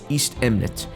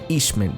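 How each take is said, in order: First: The name is said fully with three syllables. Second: The name is run together into two syllables. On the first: The speaker calls it right. "the proper way to say it is East Emnet" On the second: The speaker calls it wrong. "I keep saying Eastment"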